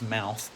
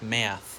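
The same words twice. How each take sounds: First: The vowel has a standard Australian quality. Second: The vowel has a broad Australian quality. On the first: "most Australians still pronounce as mouth" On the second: "people with broader accents tend to pronounce more like mouth"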